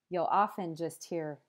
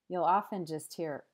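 No difference in how they are said.

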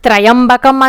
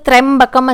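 First: An extra 'ya' syllable follows 'tra'. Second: 'Tra' joins straight into 'yam' without an extra syllable. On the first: The speaker calls it wrong. "త్రయంబకం అని చదవడం మానేసి" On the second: The speaker calls it right. "త్రయంబకం అని చదవాలి"

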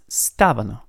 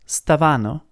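First: The stress is on the first syllable. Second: The stress is on the second syllable. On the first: The speaker calls it right. "but it's stavano. So the pitch is on the first A" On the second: The speaker calls it wrong. "It's not stavano"

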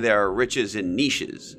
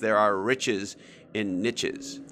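First: Niches does not rhyme with riches. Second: Niches rhymes with riches. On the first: The speaker calls it wrong. "you can't really say" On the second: The speaker calls it right. "Niche rhymes with things that niche doesn't. Like one of the ones I like is"

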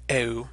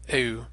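First: An e sound glides into a rounded French u. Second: An e sound glides into a rounded French u.

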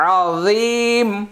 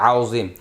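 First: The word is said as 'azeem' with a long end. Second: The word is said as 'auzim' with a short end. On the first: The speaker calls it right. "আযাবুন আযীম, আযীম আযীম" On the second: The speaker calls it wrong. "অনেকে এটা আউজিম বলে, তাহলে মারাত্মক ভুল হবে"

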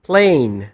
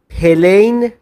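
First: The p and l are said together without a vowel. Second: A vowel is inserted between p and l. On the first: The speaker calls it right. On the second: The speaker calls it wrong.

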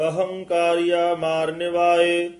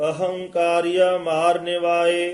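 Both takes have the same delivery.

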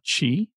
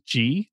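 First: The word begins with a ch sound. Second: The word begins with a soft j sound. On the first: The speaker calls it wrong. "not chi" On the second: The speaker calls it right. "It is ji"

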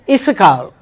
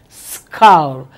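First: An extra vowel comes before the s. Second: The word starts directly with the s sound. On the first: The speaker calls it wrong. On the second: The speaker calls it right.

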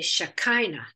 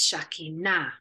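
First: The stress is not on the final syllable. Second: The stress is on the final syllable. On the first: This is the English way of saying it. "in English, we put an emphasis on a different syllable. We say Shekinah" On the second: This is the Hebrew way of saying it. "in Hebrew, it's Shekinah on the end syllable"

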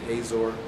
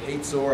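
First: The middle has a plain 'z' sound. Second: The middle has a 'ts' sound. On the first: This is how the speaker personally says it. "I say it Hazor" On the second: This is how others are supposed to say it. "I think they're supposed to say it Hazor ... I'm not sure where they get the T"

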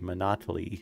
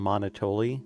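First: The name is said to sound like Monopoly. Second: The name does not sound like Monopoly. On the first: "it is a play on Monopoly. So I think it's supposed to be Monotoly" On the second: "I used to call him Monotoli, which isn't an unreasonable pronunciation"

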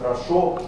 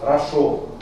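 First: The first syllable is weak and reduced. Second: The first two syllables have equal full vowels. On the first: "вместо «хорошо»" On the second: "Мы слышим одинаковые звуки в первом и втором слоге"

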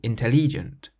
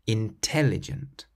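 First: The stress falls on a syllable besides 'tel'. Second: The stress falls on the syllable 'tel'. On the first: The speaker calls it wrong. "If you were to stress a different syllable, it wouldn't quite sound right" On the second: The speaker calls it right. "you stress the tel part in the middle"

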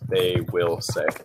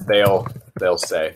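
First: 'They will' is said as two full words. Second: 'They will' is contracted to one syllable. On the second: "did you hear what I said? They'll say"

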